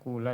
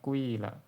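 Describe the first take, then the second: First: The first vowel is a pure u sound. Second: A quick u glides into an i sound. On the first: "didomakan dengan murni... yang paling tidak fasih" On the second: "Kalau ismam jadinya kuila. Jadi domahnya itu dibaca cepat"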